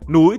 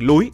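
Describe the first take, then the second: First: The word begins with an n sound. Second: The word begins with an l sound.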